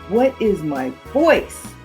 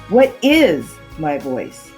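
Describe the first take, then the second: First: The word 'voice' is emphasized. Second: The word 'is' is emphasized. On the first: "and finally, the last word" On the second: "then the second word"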